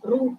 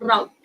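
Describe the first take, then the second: First: It is said the British English way. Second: It is said the American English way. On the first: "That is the British English pronunciation" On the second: "in American English, actually അവർ route എന്നാണ് pronounce ചെയ്യുന്നത്"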